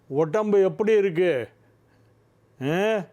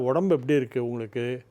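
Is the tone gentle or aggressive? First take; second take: aggressive; gentle. First: It is said in a raised, threatening tone. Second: It is said softly in a low, gentle tone.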